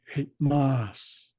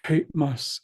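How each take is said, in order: First: The stress is on the last syllable. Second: The stress is on the first syllable. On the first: It refers to several chiefs. "switch the accent to the last syllable" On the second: It refers to one chief. "one hereditary chief"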